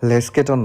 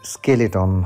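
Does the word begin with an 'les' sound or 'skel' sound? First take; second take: les; skel. First: The word begins with the sounds 'les'. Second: The word begins with the sounds 'skel'. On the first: The speaker calls it wrong. "লেস্কেটন না" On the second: The speaker calls it right. "স্কেলেটন হবে উচ্চারণটা"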